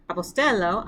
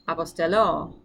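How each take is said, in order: First: The stress is on the second-to-last syllable. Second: The stress is on the last syllable. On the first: I send out. "the accent is going to move um, from the penultimate syllable" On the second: I will send out. "to the ultimate, or to the last syllable"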